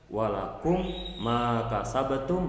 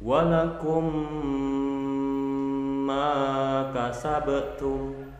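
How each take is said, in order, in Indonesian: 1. Bunyi m pendek dan tidak ditahan. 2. Bunyi m menyatu dan ditahan panjang.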